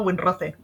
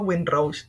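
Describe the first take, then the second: First: The name is said with a Spanish-style pronunciation. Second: The name is said with an English-style pronunciation. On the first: The speaker is saying it plainly, without pretension. "pero la españolada Winroce" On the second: The speaker is trying to sound sophisticated. "Cuando me da por hacerme lo interesante digo Winrose"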